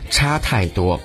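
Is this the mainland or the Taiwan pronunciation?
Taiwan. It uses the Taiwan reading of the first syllable. "可是在台湾却被读为差太多"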